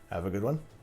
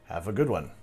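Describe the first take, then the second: First: The voice rises at the end like a question. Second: The voice falls at the end like a statement. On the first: It sounds like asking something. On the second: It sounds like a plain farewell.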